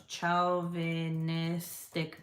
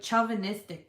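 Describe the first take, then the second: First: "Chauvinistic" drawn out very slowly, syllable by syllable; sounding out. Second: Said in the usual way. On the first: Real, not acted. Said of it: "What the fuck is that word? Hold on". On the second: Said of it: "What the fuck is that word?".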